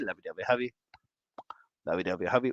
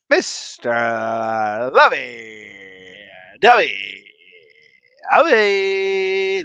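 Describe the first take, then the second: First: Quick sing-song chant, rising on Hubby; rhythmic chant. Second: Each word stretched apart, louder, like a ring announcer; drawn-out announcer call. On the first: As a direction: chant it like a playground rhyme. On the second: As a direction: announce every word slowly and grandly. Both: Acted.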